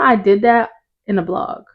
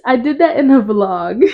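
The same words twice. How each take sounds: First: Said in the usual way. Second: "vlog" said louder and more emphatically after a slip; corrected word VLOG. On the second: Real, not acted. Host fixes her blog slip for listeners, emphatic correction. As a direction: redo the line, landing clearly on "vlog".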